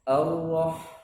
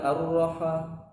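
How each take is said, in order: First: The h sound is clear with no added bounce. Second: The h sound bounces with an added vowel. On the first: The speaker calls it right. "harus jelas dia" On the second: The speaker calls it wrong.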